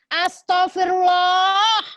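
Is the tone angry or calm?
angry. It is said in an angry, raised tone. An outburst of irritation at someone. The speaker calls it wrong. "Tapi kalau cara kita menyampaikan adalah mama, mama, mama, astagfirullah"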